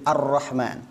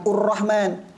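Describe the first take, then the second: First: The word begins with an a vowel. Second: The word begins with a u vowel. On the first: The speaker calls it right. "Jadi Ar-Rahman" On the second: The speaker calls it wrong. "bukan Ur-Rahman"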